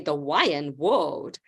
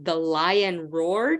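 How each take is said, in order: First: The R sound in 'roared' is replaced by W. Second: The R sound in 'roared' is clearly pronounced. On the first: "he would say the lion whoaed" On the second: "instead of the lion roared"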